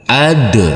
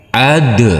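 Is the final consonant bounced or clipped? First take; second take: bounced; bounced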